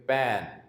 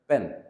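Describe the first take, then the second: First: The vowel is stretched out long. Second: The vowel is short and not stretched. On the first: The speaker calls it wrong. "थोड़ा लंबा खींच के बोलेंगे पैन" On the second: The speaker calls it right. "English में ये बोला जाता है पेन"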